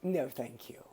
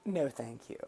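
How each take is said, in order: First: Softer, demure no thanks; a hushed, polite brush-off; mild quiet decline; polite quiet refusal. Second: Soft whispered polite refusal; hushed Canadian politeness; whispered politely. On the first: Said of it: "And they're like". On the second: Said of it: "a Canadian would probably just tell them". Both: Retold or imitated.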